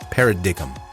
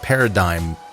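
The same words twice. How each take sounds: First: The word is pronounced in a deliberately odd way. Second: The word is pronounced in the usual way. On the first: The speaker calls it wrong. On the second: The speaker calls it right.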